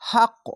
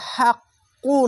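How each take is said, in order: First: The word ends on a bounced, echoing q sound. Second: The word ends with a short u vowel. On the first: The speaker calls it right. "হাক্ক হাক্ক এরকম বলে থেমে যাবেন" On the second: The speaker calls it wrong. "হাক্কু না বলে"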